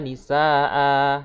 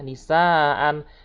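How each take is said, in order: First: The word ends on a long vowel, no n. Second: The word ends with an n sound. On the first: The reciter stops at the end of the verse. "Karena dia itu mat iwat maka dibacanya" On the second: The word is read without stopping. "Kalau memang dia tak dimatiwatkan maka nisaan"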